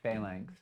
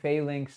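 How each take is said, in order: First: It does not sound like 'fairy lynx'. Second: It sounds like 'fairy lynx'. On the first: The speaker calls it wrong. "not phalanx" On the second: The speaker calls it right. "like a fairy lynx"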